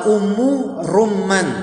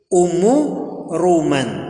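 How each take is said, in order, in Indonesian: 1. Bunyi m dalam Ruman dibaca panjang. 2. Bunyi m dalam Ruman dibaca pendek. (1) "Sebagian orang mereka salah melafalkan ... Ini keliru" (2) "Yang benar Ummu Ruman. Jadi huruf mimnya itu nggak usah ditasydid"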